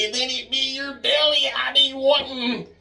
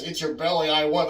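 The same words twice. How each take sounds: First: High, raspy-sounding leprechaun imitation. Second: Said in the usual way. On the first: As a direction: squeak it out like the leprechaun. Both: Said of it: "but I swear I remember him saying".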